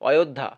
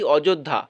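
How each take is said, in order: First: The middle consonant is a y sound. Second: The middle consonant is a j sound. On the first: This is the Hindi way of saying it. "হিন্দিতে এবার এটা পড়ো" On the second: This is the Bengali way of saying it. "বাংলায় আনতে গেলে অযোধ্যার উচ্চারণ কিন্তু বর্গীয় হচ্ছে"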